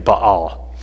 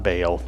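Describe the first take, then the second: First: The word is pronounced gutturally, deep in the throat. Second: The word is pronounced forward in the mouth. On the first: The speaker calls it right. "everything is real guttural ... It's actually Baal" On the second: The speaker calls it wrong. "so it's not Baal. We wanted, we pulled it forward"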